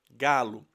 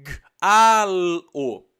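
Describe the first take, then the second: First: "Galo" sussurrado, a palavra inteira junta. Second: "G-A-L-O" soletrado alto, som por som; soletrando os sons. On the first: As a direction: sussurre "Galo" depois de soletrar. ("Galo" em sussurro, emendado) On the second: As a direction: separe cada som de "G-A-L-O" com ênfase. (soletração sonora de "G-A-L-O", bem marcada) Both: Shown as a demonstration. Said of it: "eu dou pra criança a palavra galo".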